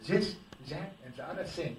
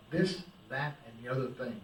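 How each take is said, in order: First: Put-on This, that, and the other thing said as Zis, zat, and ze ozzer sing, German accent, higher; mock German accent. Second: Said in the usual way. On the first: Exchange student mimics the speaker, German accent. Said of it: "and he goes". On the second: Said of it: "repeat exactly what I say".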